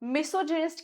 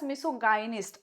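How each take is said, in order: First: The middle syllable sounds like 'jin'. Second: The middle syllable sounds like 'guy'.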